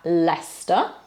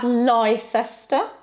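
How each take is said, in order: First: The name is pronounced unlike its spelling. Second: The name is pronounced following its spelling. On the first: The speaker calls it right. "we have Leicester" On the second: The speaker calls it wrong. "we don't have Leicester"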